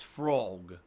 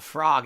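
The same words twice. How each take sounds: First: "frog" as "frohg", rounded vowel; supposedly correct "frog". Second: "frog" as "frahg", open "ah"; rejected "frog" pronunciation. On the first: Streamer mock-correcting his accent for viewers, rounded "frohg". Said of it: "it's frog". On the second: Streamer mock-correcting his accent for viewers, open "frahg". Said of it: "Apparently it's not frog". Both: Shown as a demonstration.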